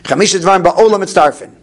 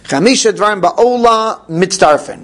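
First: The phrase is said at a fast pace. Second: The phrase is said at a slow pace. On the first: "so now the mem gets lost" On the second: "Well, I didn't say it fast"

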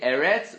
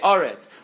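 First: The first vowel is an e sound. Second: The first vowel is an o sound. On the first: This is the ordinary form, not used at a pause. The speaker calls it wrong. "we don't say Eretz" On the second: This is the form used at a pause. The speaker calls it right. "we say Oretz"

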